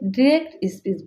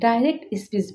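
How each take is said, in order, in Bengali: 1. 'direct' American উচ্চারণে বলা হয়। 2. 'direct' ব্রিটিশ উচ্চারণে বলা হয়। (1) "ইউএসএ ডিরেক্ট স্পিচ বলে" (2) "ইউকেতে ডাইরেক্ট স্পিচ বলে"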